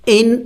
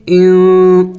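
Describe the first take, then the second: First: ان with the نون sounded out plainly, no nasal hiding; the wrong way, ان with an open nūn; wrong clear noon. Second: ان with the نون hidden in the nose; slow ان with the nūn hidden nasally; ikhfa nasal. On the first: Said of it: "ان نہیں پڑھیں گے". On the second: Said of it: "ناک میں آواز چھپائیں گے". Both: Shown as a demonstration.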